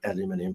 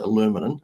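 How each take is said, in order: First: It is said the Australian way. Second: It is said the American way. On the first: "but we pronounce it" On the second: "you guys pronounce it"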